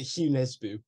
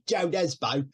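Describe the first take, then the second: First: The first name begins with a Y sound. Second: The first name begins with a J sound. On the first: The speaker calls it right. "I think you pronounce it Hugh Nesbo" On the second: The speaker calls it wrong. "it's spelled Joe Nesbo, but it sounds a bit weird"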